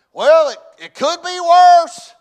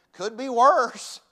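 First: High, slow, full-out shout; shouted self-encouragement. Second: Slow, raised, emphatic motto; measured motto. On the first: Acted. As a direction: holler it out to buck yourself up. Shouts his motto to encourage himself. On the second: Shown as a demonstration. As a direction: draw it out as a motto to remember. First, measured take of his motto.

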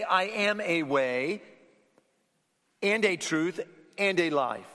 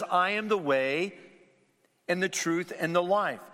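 First: "a way" said slowly, each "a" drawn out as the wrong version; slow down on every "a" to show it's wrong; slow contrasting misquote. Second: "the way" and "the truth" leaned on, the article weighted; stress on the. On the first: Preacher showing what Jesus did not say, slow and deliberate. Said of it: "He doesn't say". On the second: Preacher quoting Jesus to the congregation, stressing "the". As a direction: press each "the" as the only way. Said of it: "There's the definite word, "the". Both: Shown as a demonstration.

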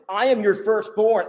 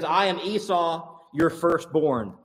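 First: "firstborn" pushed out, louder and higher; stress on firstborn. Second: Said in the usual way. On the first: Shown as a demonstration. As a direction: lean hard on "firstborn" to insist. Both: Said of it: "Emphasis in Hebrew on the last word there".

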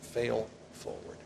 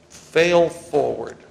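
First: Slow, softer repeat of "Fail forward"; soft echo. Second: Slow, loud, with FAIL hit hard; punchy slogan. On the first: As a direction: let "Fail forward" sink in quietly. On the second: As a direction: hammer "Fail forward" like a motto. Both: Shown as a demonstration. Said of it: "is what Pastor Kaiser says".

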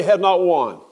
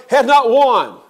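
First: "has" leaned on, said at normal pitch and level; calm stress on has. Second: NOT punched high and loud in "has not won"; defiant stress on not. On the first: Preacher repeating to congregation, calm settled stress on has. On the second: Preacher to congregation, death has not won, forceful stress on not. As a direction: hit "not" hard, pitch up, louder. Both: Acted.

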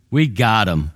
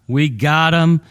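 First: Said in the usual way. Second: "We got him" pushed higher and louder, triumphant; gloating. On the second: Acted. Preacher voicing Paul's captors crowing over him, loud and triumphant. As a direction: crow "We got him" like a victorious jailer.

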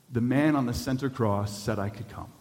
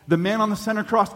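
First: Said in the usual way. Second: "The man on the center cross" lifted higher and louder, stress on "cross"; emphatic repeat. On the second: Acted. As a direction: exult over "center cross". Preacher repeats punchline with emphasis.

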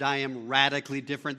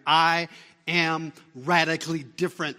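First: Said in the usual way. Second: Louder, punched proclamation; emphatic proclamation. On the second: Real, not acted. Preacher to congregation, a loud ringing proclamation. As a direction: throw it out to the room. Preacher repeats line to build.

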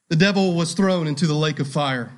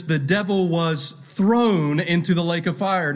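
First: Said in the usual way. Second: "thrown" as the clear peak of the line; stress on thrown. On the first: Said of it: "Emphasis in that phrase on the word thrown". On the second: Shown as a demonstration. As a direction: press down on "thrown".

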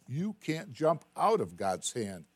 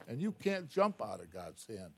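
First: Slow, emphatic. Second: Said in the usual way. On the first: Shown as a demonstration.

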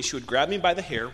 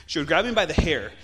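First: Said in the usual way. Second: The same words again, much louder; louder repeat. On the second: Real, not acted. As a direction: push the repeat hard for emphasis. Repeats the line with emphasis.

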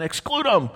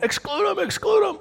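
First: Higher, mildly raised answer; overheard answer. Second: Very high repeated mob chant; crowd chant. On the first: Preacher voicing what Richard hears, a mildly raised call. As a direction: say it as a half-heard call. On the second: Preacher voicing the crowd chanting, a very high repeated chant. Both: Pretend.

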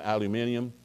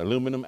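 First: "aluminium" said al-yoo-MIN-ee-um, five syllables; "aluminium" with the stress on MIN; British pronunciation. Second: "aluminum" said a-LOO-mi-num, four syllables; "aluminum" with the stress on LOO; American pronunciation. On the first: Pastor shows the English al-yoo-MIN-ee-um. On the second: Pastor shows the American a-LOO-mi-num. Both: Shown as a demonstration. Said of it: "it's just like".

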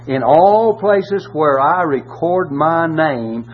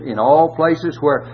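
First: Slow, each word weighed, stress on all; slowed, pointed scripture emphasis; slow emphatic reading. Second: Said in the usual way. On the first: Shown as a demonstration. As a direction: drag out "in all places where I record my name" for weight.

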